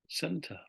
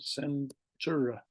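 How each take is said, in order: First: Said in the usual way. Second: "center" broken slowly into "cen" and "truh"; spelling pronunciation. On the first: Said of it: "we pronounce it the same". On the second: Shown as a demonstration. Teacher spelling out the British form, "center" said slowly as cen-truh. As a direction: sound out "center" as written R E, cen-tre. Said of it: "it's spelled center".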